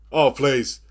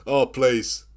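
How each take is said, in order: Both takes have the same delivery.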